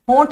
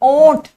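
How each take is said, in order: First: The word begins with an h sound. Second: The word begins directly with a vowel. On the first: The speaker calls it wrong. "होंठ नहीं बोलते" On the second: The speaker calls it right.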